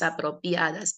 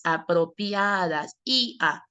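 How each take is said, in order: First: Said in the usual way. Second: Apropiadas stretched out slowly, the ia drawn long; slow sounding-out. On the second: Shown as a demonstration. Teacher showing the diphthong, Apropiadas slowly sounded out. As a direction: draw out the ia in Apropiadas. Word repeated to show diphthong.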